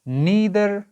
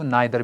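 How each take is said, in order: First: The first vowel sounds like 'ee'. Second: The first vowel sounds like 'eye'.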